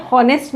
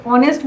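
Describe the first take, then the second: First: हॉनेस्ट with a sounded h at the start; wrong pronunciation. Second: ऑनेस्ट with a silent h, opening on ऑ; correct pronunciation. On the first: Teacher to class, showing mistaken हॉनेस्ट with h. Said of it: "हॉनेस्ट नहीं बोलते हैं". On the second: Teacher to class, modelling silent-h ऑनेस्ट. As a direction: say ऑनेस्ट starting on the vowel, no h. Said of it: "ऑनेस्ट बोलते हैं". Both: Shown as a demonstration.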